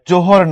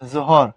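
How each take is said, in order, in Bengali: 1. ব্যঞ্জনটি একটি সাধারণ j ধ্বনি। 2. ব্যঞ্জনটি সাধারণ j ধ্বনি নয়।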